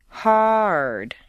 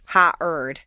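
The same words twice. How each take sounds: First: "Hard" gliding smoothly from the vowel into R; "Hard" flowing in one smooth stair step. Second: "ha-erd" broken into two choppy beats; slow, split "ha-erd" with a hard stop between; staccato ha-erd. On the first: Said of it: "flow them smoothly over the double stair step". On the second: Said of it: "Don't make them two staccato sounds". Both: Shown as a demonstration.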